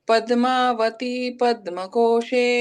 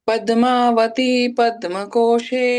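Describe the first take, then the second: The two takes are said the same way.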